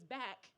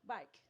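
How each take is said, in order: First: The vowel sounds like the one in 'back'. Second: The vowel sounds like the one in 'bike'.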